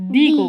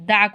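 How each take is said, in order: First: The word ends in a long 'ee' vowel. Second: The word ends in a short 'uh' vowel. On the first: The next word starts with a vowel. "এটার উচ্চারণ আমি কি করব? দি করব।" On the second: The next word starts with a consonant. "T H E এর উচ্চারণ কি করব? দা করব।"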